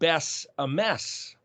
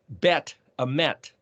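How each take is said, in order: First: Each word ends with an s sound. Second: Each word ends with a t sound. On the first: "pronounce the final Tav plural suffix as an S" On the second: "the T"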